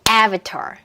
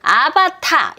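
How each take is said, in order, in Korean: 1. 첫 음절을 세게 하고, 나머지는 약하게 해요. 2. 세 음절 모두 똑같은 박자로 고르게 가요. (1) "다라라 여기에 맞춰서 한번 해볼게요. 시작" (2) "한국어로 치면 정박이죠. 따따따"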